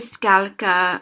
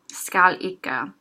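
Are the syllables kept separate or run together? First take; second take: together; separate. First: The syllables are run together into fewer sounds. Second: The syllables are said apart, each one distinct. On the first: "closer to Skalka" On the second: "Skalika might be said a little announced and separate"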